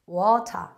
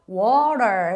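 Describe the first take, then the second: First: The final r is not curled, British style. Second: The final r is curled, American style. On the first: "영국이나 호주 발음은 water, water, water 해서" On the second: "혀가 구강을 건드리지 않은 상태에서 R 말려 있으면 됩니다"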